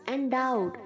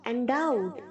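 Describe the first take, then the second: The two takes are said the same way.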